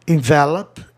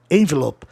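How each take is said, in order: First: Envelope with open first vowel, stress on first syllable; noun envelope. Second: Envelope with stress on the second syllable, closed e; verb envelope. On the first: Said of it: "Olha, envelope". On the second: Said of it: "é verbo". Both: Shown as a demonstration.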